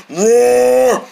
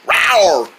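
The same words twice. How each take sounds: First: Higher, sustained level roar; demonstrated bear roar. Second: Short "rawr" that falls away; a quick playful dinosaur rawr; pretend dinosaur roar. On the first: Shown as a demonstration. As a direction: hold one long imitation bear roar. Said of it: "Bears roar like this". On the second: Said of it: "bears don't roar like that".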